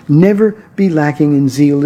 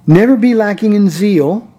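First: "Never" stark betont, der Satz fällt danach ruhig ab; stress on never. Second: "Never be lacking in zeal" mit steigender Betonung auf "be"; rising emphatic exhortation. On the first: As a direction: lean hard on "Never", then settle down. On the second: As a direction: lift the line up on "be", urging. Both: Shown as a demonstration.

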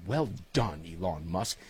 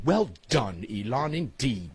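First: Put-on lower, softer English accent repeat; trailing mock English accent. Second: Mock posh English accent, well done Elon; hammed-up English accent praise. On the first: Host repeating his praise of Elon in an English accent. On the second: Host toasting Elon Musk to listeners in an English accent. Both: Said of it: "to be spoken in my best English accent".

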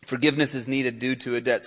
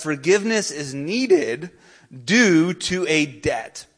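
First: Said in the usual way. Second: "due to a debt" slow and deliberate; emphatic point. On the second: Real, not acted. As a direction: draw out "due to a debt", landing firmly on "due". Main point stated, then repeated.

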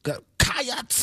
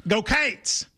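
First: "Go Cats" said flat in one syllable, cheering high. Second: "Go Cates" stretched into two syllables, Kentucky style. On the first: Co-host attempts the Kentucky cheer, high and bright. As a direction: try the Kentucky cheer and miss the extra syllable. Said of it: "Not exactly". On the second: Kentucky host showing the real cheer, "Go Cates". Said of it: "in Kentucky, we go". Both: Shown as a demonstration.

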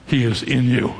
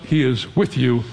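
First: IN set apart in contrast; stress on IN. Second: WITH set apart in contrast; stress on WITH. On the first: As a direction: lean on "in" to mark the difference. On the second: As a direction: lean on "with" to mark the difference. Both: Shown as a demonstration. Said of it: "a phrase that tells you the difference".

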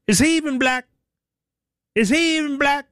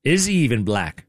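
First: Much higher put-on voice, mocking Obama; Obama's put-on voice. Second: Said in the usual way. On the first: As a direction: squeak it up high like a mocking impression. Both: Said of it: "I say it in that voice".

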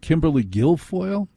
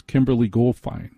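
First: Guilfoyle said as gill-foil, higher questioning tune; corrected pronunciation. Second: Goldfein said as gold-fine; mispronounced surname. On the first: Radio host checking the corrected surname, Guilfoyle as gill-foil. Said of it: "That's how you say it". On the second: Radio host guessing at a surname, mispronouncing Goldfein as gold-fine. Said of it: "How do you pronounce that?". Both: Real, not acted.

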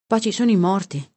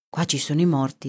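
First: Lifted echo. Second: Said in the usual way. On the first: A narrator's reading. Narrator repeating Bibbi's words by the cemetery, lifted echo. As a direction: repeat it with more lift and force. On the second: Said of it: "disse Bibi".

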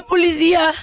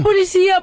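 First: Mock panicked repeat. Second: High, loud cry of "Policía" for help; "Policía" called out high and loud like a fake emergency; mock panicked call. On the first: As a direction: stretch "policía" into a pleading high wail. Fake panicked call to police.

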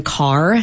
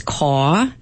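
First: Said in the usual way. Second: R-less "caw", open vowel with no final R; dropped R. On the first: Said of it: "saying car as caw". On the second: Shown as a demonstration. Linguist demonstrating a Yat feature, R dropped in "caw". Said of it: "one is dropping R's".

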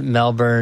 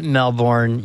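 First: Melbourne as MEL-bun, the second syllable swallowed; Australian pronunciation. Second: Melbourne as MEL-born, with a clear R and full second vowel; full American pronunciation. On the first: Co-host contrasting it with the local Aussie Melbourne, clipped to MEL-bun. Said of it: "You can pronounce it Melbourne". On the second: Co-host showing the American way to say the city name, sounding out MEL-born. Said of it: "you can pronounce it Melbourne". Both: Shown as a demonstration.

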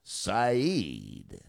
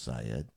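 First: "Saeed" drawn out as sigh-EED; slow, exaggerated "Saeed", ending in -eed; goofy mispronunciation. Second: "Syed" said as SIGH-ed; low, quick "Syed", ending in -ed; correct pronunciation. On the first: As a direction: stretch the long ee in "Saeed". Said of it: "it sounds goofier if you say". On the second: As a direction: say "Syed" with a short, unstressed second syllable. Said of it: "I know his name is pronounced". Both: Shown as a demonstration.

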